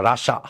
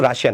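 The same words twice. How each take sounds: First: "রাশা" in two syllables, Ra-sha; English pronunciation. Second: "রাশিয়া" with an "-ia" ending; non-English pronunciation. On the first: Teacher correcting students' English, "রাশা" said Ra-sha. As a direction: say "রাশা" with no i sound before the final a. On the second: Teacher showing students the form English avoids, "রাশিয়া" said Ra-shi-ya. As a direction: say "রাশিয়া" in three syllables, Ra-shi-ya. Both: Shown as a demonstration. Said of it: "English উচ্চারণ কিন্তু রাশিয়া না".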